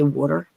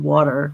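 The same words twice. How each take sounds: First: "water" with the Philly vowel; Philly-accented "water"; Philly pronunciation. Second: "water" drawn out, between Philly and Boston; "water" with a neutralized Philly vowel; in-between pronunciation. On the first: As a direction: say "water" like a Philadelphia local. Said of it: "we say water in Philly". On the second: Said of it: "in between what Philly and Boston". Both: Shown as a demonstration.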